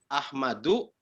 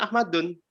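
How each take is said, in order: First: AHMADU with open final U, lower; reading without tanwin. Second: AHMADUN ending in -dun; reading with tanwin. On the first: Student contrasts two readings for the teacher, Ahmadu without final N. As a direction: end "Ahmadu" on -du, no N. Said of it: "tanpa huruf begini". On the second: Student shows his habitual reading to the teacher, Ahmadun with final N. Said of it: "kita bacanya Ahmadun". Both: Shown as a demonstration.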